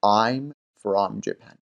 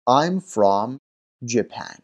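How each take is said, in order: First: I'm from Japan, spelled out very slowly; slow demo. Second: Said in the usual way. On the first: Shown as a demonstration. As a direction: stretch each word for learners. (خیلی آهسته و شمرده برای شاگردان) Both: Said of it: "کلمهٔ from رو حتماً باید بگید".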